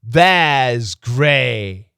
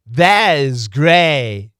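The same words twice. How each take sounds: Both takes have the same delivery.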